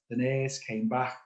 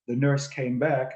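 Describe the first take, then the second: First: The phrase is said in a broad Liverpool accent. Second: The phrase is said in a general, non-regional accent.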